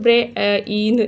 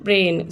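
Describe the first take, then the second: First: The vowels are split into two syllables. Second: The vowels merge into one single syllable. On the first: The speaker calls it wrong. "ब्रे इन ऐसा नहीं बोलते ना हम लोग" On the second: The speaker calls it right. "सो आई जो है इसमें साइलेंट हो गया"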